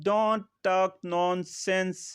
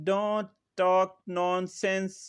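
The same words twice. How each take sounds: No difference in how they are said.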